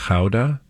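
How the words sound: Gouda is said the Dutch way.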